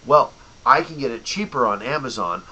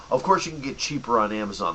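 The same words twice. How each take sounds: First: Mock customer. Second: Said in the usual way. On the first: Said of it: "and then you go". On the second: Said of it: "his retort".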